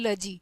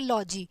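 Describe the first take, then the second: First: The vowel is a short reduced 'luh' sound. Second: The vowel is a full open 'law' sound. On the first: The root is attached to another word. "जब ये किसी word के साथ जुड़ जाता है" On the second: The root is said on its own. "जब ये खाली बुलाया जाता है"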